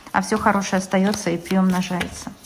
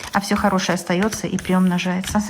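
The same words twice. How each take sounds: The two takes are said the same way.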